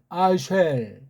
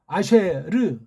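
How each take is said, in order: First: It ends with an L sound closing the syllable. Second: It ends with a separate final 'reu' syllable. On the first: The speaker calls it wrong. "그냥 아쉘, 아쉘" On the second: The speaker calls it right. "이건 아쉘이 아니고 아쉐르"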